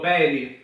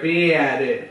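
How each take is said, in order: First: The first vowel is a plain e sound. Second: The first vowel glides as an ie sound. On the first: This is the Catania way of saying it. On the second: This is the Palermo way of saying it. "Invece in palermitano dice"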